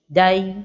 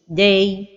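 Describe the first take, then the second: First: The vowel is made heavy and dark. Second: The vowel is made thin and light. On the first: "d'emphatiser la voyelle de la lettre del comme ceci" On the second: "Ou bien l'amincir comme ceci"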